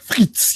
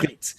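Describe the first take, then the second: First: "frites" drawn out in exaggerated French; overpronounced French. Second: "frites" said the American way; Americanized pronunciation. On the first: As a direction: overdo the French accent on "frites". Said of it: "not, not like frites". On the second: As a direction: say "frites" plainly, without French accent. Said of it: "said it kind of Americanized". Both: Shown as a demonstration.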